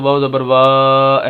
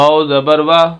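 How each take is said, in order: First: The final vowel is stretched out long. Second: The final vowel is short and even. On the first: The speaker calls it wrong. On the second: The speaker calls it right.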